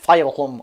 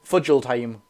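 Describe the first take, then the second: First: Several letters of the name are left silent. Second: Every letter of the name is sounded out. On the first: The speaker calls it right. "it's definitely pronounced like Fileholm or something" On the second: The speaker calls it wrong. "it looks like you say it like Fudgeldheim"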